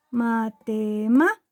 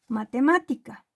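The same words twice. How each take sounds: First: "matemática" broken into syllables, punching "má"; stress on antepenultimate syllable. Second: Said in the usual way. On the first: Shown as a demonstration. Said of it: "Su sílaba tónica o golpe de voz". ("matemática" sílaba por sílaba, con golpe de voz en "má") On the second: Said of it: "En el caso de la palabra".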